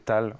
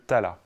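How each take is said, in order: First: The word ends on its final consonant. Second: The word ends with a final vowel sound.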